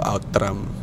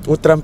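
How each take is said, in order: First: The first vowel sounds like 'ow'. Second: The first vowel sounds like 'oo'. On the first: The speaker calls it wrong. "Sinabi ko, Outtram. Hindi kasi marunong magbasa" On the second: The speaker calls it right. "Utram pala yung basa"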